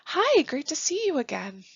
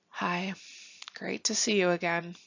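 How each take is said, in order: First: The greeting sounds warm and welcoming. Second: The greeting sounds flat and unwelcoming. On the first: The listeners are genuinely welcome. The speaker calls it right. "it feels a lot more welcoming" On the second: The listeners are not really welcome. The speaker calls it wrong. "do you think they would feel welcome and comfortable? Probably not"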